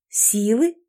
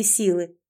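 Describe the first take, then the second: First: "Силы?" with a rising questioning end; echo question. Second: Said in the usual way. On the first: Acted. Heroine wonders what strength is meant, asking back "Силы?" with a rise. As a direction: ask back "Силы?", lifting the final syllable. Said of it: "переспросила".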